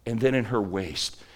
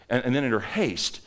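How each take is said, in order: First: "waste" said with a clear w where haste was meant; a misspoken "waste" with a w sound; slip of the tongue. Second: "haste" said carefully with a clear h; a careful self-correction to "haste" with an h; corrected word. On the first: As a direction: stumble into "waste" before correcting it. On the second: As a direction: fix the slip and say "haste" properly. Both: Real, not acted.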